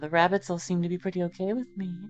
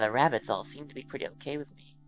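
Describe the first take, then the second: First: It is said in a mischievous voice. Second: It is said in a raspy, motherly voice.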